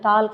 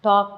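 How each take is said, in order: First: An L sound is heard before the final k. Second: No L sound is heard before the k. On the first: The speaker calls it wrong. "நிறைய பேர் இந்த டாக்கு கூட வந்து டால்க் அப்படின்னு சொல்லுவாங்க. அந்த மாதிரி சொல்லக்கூடாது" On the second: The speaker calls it right. "டாக் வாக் அப்படிங்கிறது மட்டும்தான் இருக்கணும்"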